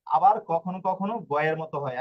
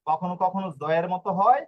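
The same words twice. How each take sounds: First: গয়ের with a hard g, phrase ending on a fall. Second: জয়ের with a j sound, phrase ending on a rise. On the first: Teacher contrasts sounds of G, hard g in গয়ের, falling হয়. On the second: Teacher contrasts sounds of G, j in জয়ের, rising হয়. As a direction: say জয়ের with a clear j, lift হয় at the end. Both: Shown as a demonstration. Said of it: "জি অক্ষর দুই ধরনের হয়".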